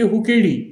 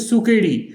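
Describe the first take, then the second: First: The word begins with an h sound. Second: The word begins with an s sound. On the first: This is the Samvedi dialect form. "वो बोलेंगे हुकेड़ी" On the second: This is the standard Marathi form. "Marathi"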